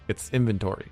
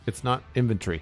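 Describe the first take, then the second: First: It is said the way it is spelled. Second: It is said to sound like 'infantry'. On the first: This is how it is said in North America. "when you look at how it's spelled" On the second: This is how it is said in the UK. "he says inventory, like infantry"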